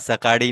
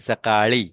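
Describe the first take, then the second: First: The middle consonant sounds like a d. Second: The middle consonant sounds like a retroflex l. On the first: The speaker calls it wrong. "डी नहीं बोलना है इसको" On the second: The speaker calls it right. "अड़ी पर ध्यान दो"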